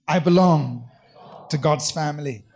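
It is said forcefully, with strong conviction.

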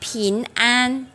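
It is said with a Taiwanese accent, tongue tip forward. "Họ đọc bình an, bình an. Họ học đọc bằng đầu lưỡi"

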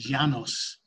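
It is said the Spanish way, with a y-like sound.

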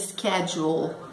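It is said with an American pronunciation.

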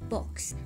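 The vowel is a short rounded 'o' sound.

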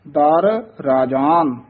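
The first word is kept separate from the second. The speaker calls it right. "ਦਰ ਵੱਖਰਾ ਬੋਲਣਾ ਹੈ, ਰਾਜਾਨ ਇਕੱਠਾ ਕਹਿਣਾ ਹੈ"

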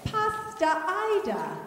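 It is said in a British accent, sounding like pasta.

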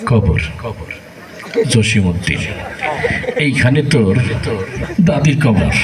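The words are recited restlessly, as if itching. The reciter is distracted by itching. "এরকম একটা চুলকানির রোগী আসছে"

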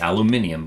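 It is said with five syllables, British style. "so you don't flame me from the UK"

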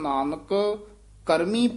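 There is a short pause after the first word. The speaker calls it right. "ਜਨ ਨਾਨਕ ਇਥੇ ਠਮਕ ਲਾ ਦੇਣੀ ਹੈ"

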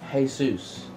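It is said with a Mexican Spanish pronunciation.

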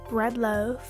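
It is said in an American accent.

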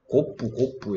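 It is said as two syllables, koppu. This is how Japanese speakers say it. The speaker calls it wrong. "일본 사람들이 이거를 발음을 못해갖고 일본 사람들이 이걸 곱부 이래"

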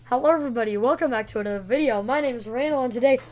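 It is said in a put-on voice.

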